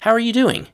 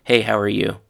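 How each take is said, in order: First: "How are you doing" pitched way up, lifting on DOING; really want to know: "How are you doing" in a high, lifted tune; rising intonation. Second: "Hey, how are you" said flatly, pitch kept level; flat intonation. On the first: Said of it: "you use rising intonation". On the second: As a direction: ask "Hey, how are you" with no lift, as a bare minimum greeting. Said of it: "If you say flatly". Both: Shown as a demonstration.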